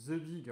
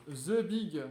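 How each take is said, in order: First: Said in the usual way. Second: Louder, drawn-out "The Big" with a falling finish; proud reveal. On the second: Acted. Youtuber unveiling the big charger with a proud, louder reveal.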